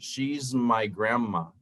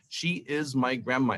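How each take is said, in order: First: She is is contracted to one syllable. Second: She is is said as two full words. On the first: The speaker calls it right. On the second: The speaker calls it wrong.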